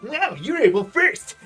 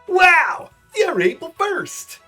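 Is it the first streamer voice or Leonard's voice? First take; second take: Leonard's voice; streamer voice. First: It is said in Leonard's voice. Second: It is said in a rejected streamer voice.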